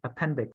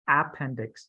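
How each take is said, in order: First: The stress is on the second syllable. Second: The stress is not on the second syllable. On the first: The speaker calls it right. "the second word is where you put the emphasis" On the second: The speaker calls it wrong. "not appendix"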